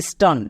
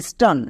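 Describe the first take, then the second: Both takes have the same delivery.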